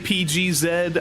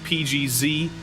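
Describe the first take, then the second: First: The last letter is pronounced zed, British style. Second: The last letter is pronounced zee, American style. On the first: It matches how most of the commentators say it. "I do want to say P G Z. I want to fit in with the uh, the accents" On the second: It is the speaker's own natural way of saying it. "so I got to stick with P G Z"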